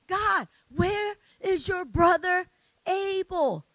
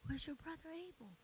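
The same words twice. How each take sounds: First: God calling out. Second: Soft breathy whisper of God's question; whispered gentle question, God asking daily. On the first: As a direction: boom the question down at Cain. God confronts Cain. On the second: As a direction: hush it almost to nothing. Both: Retold or imitated.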